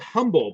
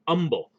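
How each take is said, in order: First: The word begins with a pronounced H sound. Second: The word begins without any H sound. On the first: "It's spelled humble" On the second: "they don't pronounce the H"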